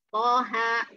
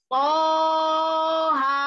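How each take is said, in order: First: The vowel is held for only two beats. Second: The vowel is drawn out well beyond two beats. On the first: The speaker calls it right. "udah cukup gitu aja" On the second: The speaker calls it wrong. "nggak boleh dibaca Toha. Salah, ya. Bagus sih, tapi salah"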